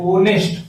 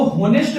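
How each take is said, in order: First: ऑनेस्ट said with the h silent, opening straight on the vowel o. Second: होनेस्ट said with a clear spoken h at the start; wrong h sound. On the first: Teacher showing students the right way, h silent. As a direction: start ऑनेस्ट on the vowel, no h at all. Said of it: "ऑनेस्ट पढ़ते हैं". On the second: Teacher showing students the wrong way, with a spoken h. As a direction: sound the h in होनेस्ट, as the mistake to avoid. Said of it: "इसको होनेस्ट नहीं पढ़ते हैं". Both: Shown as a demonstration.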